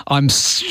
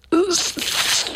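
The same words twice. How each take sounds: First: Said in the usual way. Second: Much higher, strained stuck apology; mock the Fonz who can't say sorry; Fonz struggling to apologise. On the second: Host failing to apologise to Justin, strained and much higher. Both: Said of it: "you actually sound like a good Albanese impersonator".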